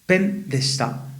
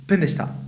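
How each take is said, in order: First: Slowed, raised delivery of "pen deshita" for the class; drawn-out model of "pen deshita"; slow, careful teacher model. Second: Said in the usual way. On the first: Shown as a demonstration. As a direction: pronounce "pen deshita" slowly so learners catch it. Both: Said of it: "entonces puedo decir".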